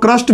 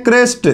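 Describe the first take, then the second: First: "क्रस्ट" with a short a vowel; short a in place of e in "क्रस्ट"; variant pronunciation. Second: "क्रेस्ट" with an e vowel; e sound in "क्रेस्ट"; standard pronunciation. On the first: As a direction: say "क्रस्ट" as krast. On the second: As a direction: say "क्रेस्ट" as krest. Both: Shown as a demonstration. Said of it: "कुछ लोग क्रस्ट भी पढ़ते हैं".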